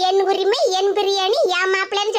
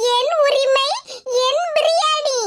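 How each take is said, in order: First: என் உரிமை, என் biryani lower, lightly mimicking; mocking her words. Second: Cheeky claim. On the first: Neighbour mimics the sister's boast, a lower mock. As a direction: sneer her boast back. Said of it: "சொல்லிவிட்டு". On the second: Acted. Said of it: "அதனால தான் சொன்னேன்".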